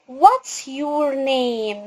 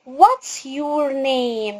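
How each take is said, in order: First: The word 'is' is shortened to 's. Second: The same.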